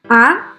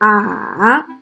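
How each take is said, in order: First: The pitch rises from middle to high. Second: The pitch dips low then rises again. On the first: "use the first vowel to practice the second tone" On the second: "let's practice the third tone"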